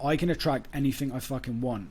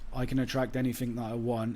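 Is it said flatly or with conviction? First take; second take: conviction; flatly. First: It is said forcefully, with conviction. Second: It is said flatly, without conviction.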